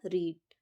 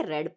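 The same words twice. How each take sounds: First: रीड with a long "ee", like "reed"; long ee vowel. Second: रेड with a short "e", like "red"; short e vowel. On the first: Teacher showing the rejected reading, रीड with long "ee". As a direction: say रीड as the present-tense "reed". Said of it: "रीड नहीं पढ़ेंगे हम इसको". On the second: Teacher correcting the pronunciation, रेड with short "e". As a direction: say रेड as the past-tense "red". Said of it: "pronunciation जो होगा वो change हो जाएगा". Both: Shown as a demonstration.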